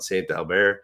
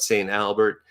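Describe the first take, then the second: First: The name is said with French pronunciation. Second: The name is said with English pronunciation. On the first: "the French around the area would call it" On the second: "called in English, they call it"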